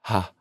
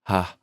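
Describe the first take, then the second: First: The vowel starts with a breathy onset. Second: The same.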